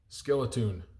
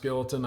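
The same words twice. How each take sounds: First: The last syllable has a long 'oo' vowel. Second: The last syllable has a short, reduced vowel. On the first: "I'm saying it the way it's spelled" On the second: "It might be pronounced skeleton"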